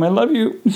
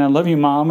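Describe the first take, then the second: First: Higher, cracking into tears; tender words choked by crying; voice breaking. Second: Said in the usual way. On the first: Real, not acted. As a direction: voice cracks into a sob. Retelling words to dying mother.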